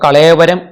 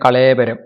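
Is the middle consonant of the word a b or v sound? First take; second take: v; b. First: The middle consonant is a v sound. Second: The middle consonant is a b sound. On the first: "വ എന്നുള്ളതിന് പകരം ബകാരം" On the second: "രണ്ടും ശരിയാണ്"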